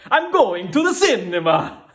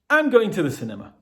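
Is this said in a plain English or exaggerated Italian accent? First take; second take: exaggerated Italian; plain English. First: It is said in an exaggerated Italian accent. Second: It is said in a plain English accent. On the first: "in a crazy Italian accent" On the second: "you say the target sentence in English first"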